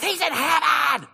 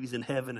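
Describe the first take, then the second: First: High, stretched-out mock preacher holler; screaming preacher impression. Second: Said in the usual way. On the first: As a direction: scream it slowly like an overwrought preacher. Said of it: "He's screaming".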